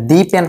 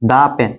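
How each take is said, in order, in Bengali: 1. 'The' লম্বা 'ee' স্বরধ্বনি দিয়ে বলা হয়। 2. 'The' ছোট 'uh' স্বরধ্বনি দিয়ে বলা হয়। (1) "এটা দি পেন হবে না" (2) "উচ্চারণটা কি হবে দা পেন"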